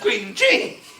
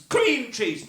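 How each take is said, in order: First: The stress is on the second word. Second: The stress is on the first word. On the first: The speaker calls it right. "It is cheese that is creamier than other cheese" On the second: The speaker calls it wrong. "they do it with all sorts of things"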